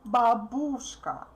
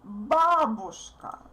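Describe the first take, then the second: First: The stress is on the second syllable. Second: The stress is on the first syllable. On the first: The speaker calls it wrong. "many people from other countries say babushka. I don't know why, but it's absolutely incorrect" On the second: The speaker calls it right. "We say babushka"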